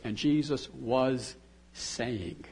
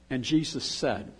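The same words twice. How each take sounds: First: "was saying" drawn out slowly, leaned on; stress on was saying. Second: Said in the usual way. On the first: Shown as a demonstration. Preacher stressing "was saying" to show the ongoing prayer. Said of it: "it says". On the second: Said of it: "Instead of saying".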